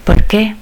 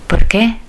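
Both takes have the same delivery.

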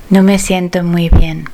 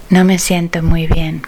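No difference in how they are said.

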